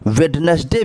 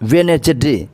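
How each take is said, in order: First: The middle d sound is pronounced. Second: The middle d sound is silent.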